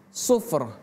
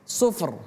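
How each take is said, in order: The two takes are said the same way.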